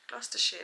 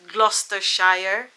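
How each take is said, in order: First: The name is pronounced the British way. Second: The name is pronounced a non-British way. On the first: The speaker calls it right. "That's how the British pronounce it" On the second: The speaker calls it wrong.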